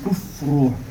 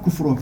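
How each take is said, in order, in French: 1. Le son f est soufflé et légèrement allongé. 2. Le son f est court, avec peu de souffle. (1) "le souffle sort ... on le prolonge un peu" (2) "on ne dit pas"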